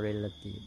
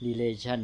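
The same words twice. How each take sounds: First: Relative with the stress on REL; REL-a-tive, said as a model word; contrasting stress. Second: Relation with the stress on LA; re-LA-tion, said as a model word; contrasting stress. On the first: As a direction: set relative against relation by stressing the first syllable. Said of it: "แต่ว่า relative อะไรงี้เป็นต้น". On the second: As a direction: set relation against relative by stressing the middle. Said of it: "แต่ว่า relative". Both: Shown as a demonstration.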